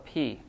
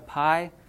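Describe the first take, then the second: First: The vowel sounds like 'ee'. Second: The vowel sounds like 'eye'. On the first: This is how it is said in Greek. "in Greek it's called a p ... there's no I sound in p" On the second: This is how it is said in math. "everyone calls it a pi"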